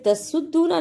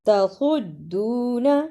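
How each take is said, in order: First: The s sound is thin and light. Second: The s sound is heavy and thick. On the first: The speaker calls it wrong. "स्वाद की जगह पे सीन की आवाज नहीं आनी चाहिए" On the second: The speaker calls it right. "स्वाद को मोटा पढ़ना है"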